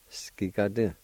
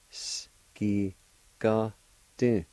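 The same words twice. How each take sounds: First: Said in the usual way. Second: S, ki, ga, du each set apart; syllable-by-syllable pronunciation. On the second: Shown as a demonstration. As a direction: sound out the word in separate pieces. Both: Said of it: "It's pronounced like this".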